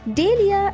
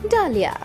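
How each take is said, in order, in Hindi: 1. पहला स्वर 'ay' की ध्वनि है। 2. पहला स्वर 'ah' की ध्वनि है। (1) "इसका गलत उच्चारण है" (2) "एक और बार"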